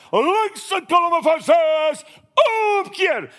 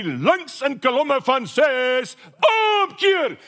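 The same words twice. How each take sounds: First: High, slow shouted Afrikaans drill command, omkeer yelled very high; RSM shouting. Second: Slow drawn-out Afrikaans parade command rising to a high shouted omkeer; imitating RSM drill command. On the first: Retold or imitated. RSM shouting the turn order at the marching troops, full parade yell. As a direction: bellow the order across the parade ground. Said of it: "And he shouts".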